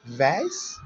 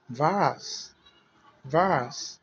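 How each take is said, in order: First: American "vase" with an AY vowel, rising; "vase," the American way, lifted at the end; American pronunciation. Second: British "vase" with a long AH, falling; "vase," the British way, broad open vowel; British pronunciation. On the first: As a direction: say "vase," to rhyme with "face". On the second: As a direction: say "vase," as "vahz", drawn out. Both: Shown as a demonstration.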